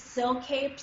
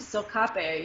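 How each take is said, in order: First: The name is said with an American pronunciation. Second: The name is said with a French pronunciation. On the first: "American people are like, what is this silk-cape stuff" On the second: "a French guy ... immediately were like, oh, silkape ... yes, that's it"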